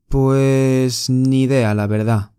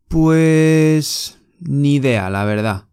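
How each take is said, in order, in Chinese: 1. 这些单词连成一个流畅的旋律。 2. 这些单词连成一个流畅的旋律。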